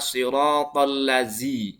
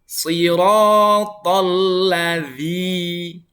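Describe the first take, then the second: First: The consonant is a plain 'z' sound. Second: The consonant is a soft 'th' sound. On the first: The speaker calls it wrong. "jangan sampai dibaca siratal ladzi. Zi, bukan" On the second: The speaker calls it right. "ada huruf dzal lagi ya"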